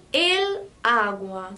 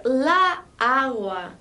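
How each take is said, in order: First: El agua said slowly and clearly, el set apart from agua; careful teacher demo of el agua; correct form el agua. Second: La agua said slowly, the two a sounds run together; slow classroom demo of la agua; wrong form la agua. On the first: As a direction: model el agua slowly for the class. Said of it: "eu digo". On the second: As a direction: spell out la agua as the form to avoid. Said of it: "ao invés de dizer". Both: Shown as a demonstration.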